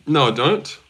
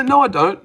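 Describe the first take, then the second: First: Said in the usual way. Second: Emphatic denial. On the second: Real, not acted. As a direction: push back hard at the comparison. Denying lookalike claim.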